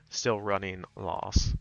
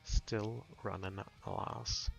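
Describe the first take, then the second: First: The vowel in the last word is rounded. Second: The vowel in the last word is unrounded. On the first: The speaker calls it right. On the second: The speaker calls it wrong.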